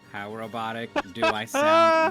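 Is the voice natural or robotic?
robotic. It is said in a put-on robotic voice.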